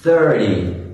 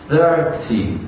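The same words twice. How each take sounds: First: The middle consonant sounds like a soft D. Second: The middle consonant sounds like a clear T.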